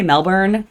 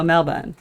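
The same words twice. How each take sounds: First: "Melbourne" with a sounded r, mel-BURN style; American pronunciation. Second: "Melbourne" with no r, like MEL-bun; Australian pronunciation. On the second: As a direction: swallow the second syllable of "Melbourne" to "bun". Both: Shown as a demonstration. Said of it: "They don't say Melbourne".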